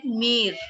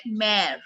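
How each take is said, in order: First: "mere" with a closed "ay" or "ee" vowel; wrong vowel. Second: "mare" with an open "eh" vowel; right open vowel. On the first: Teacher showing what not to call it, wrong vowel. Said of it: "We don't call it mere". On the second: Teacher showing the grave accent's sound, open vowel. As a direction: say "mare" wide, like Hindi "main". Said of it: "We call it mare". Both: Shown as a demonstration.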